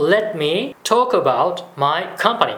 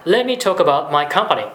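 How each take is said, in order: First: Very slow, careful English demo; slow model phrase. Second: Said in the usual way. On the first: Shown as a demonstration. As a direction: draw each word out for the learner. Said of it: "説明させてくださいっていう場合". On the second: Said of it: "柔らかい言い方になりますね".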